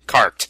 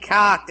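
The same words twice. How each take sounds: First: "Carked" said with a clear R; "Carked" as spelled, R pronounced; spelled-out pronunciation. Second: "carked" with the R dropped; Australian non-rhotic "carked"; Australian pronunciation. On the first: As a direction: sound the R in "Carked". Spelling out the word as correction. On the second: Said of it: "That's how we pronounce it over here". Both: Shown as a demonstration.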